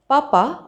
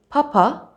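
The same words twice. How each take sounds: First: The p is released without a puff of air. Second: The p is released with a puff of air. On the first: "instead of saying papa" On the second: "I would say papa"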